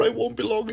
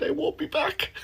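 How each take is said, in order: First: Said in the usual way. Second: Whispered, higher, much softer; sheepish whisper. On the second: Shown as a demonstration. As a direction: breathe the slip out as a whisper. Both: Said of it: "Instead, I said".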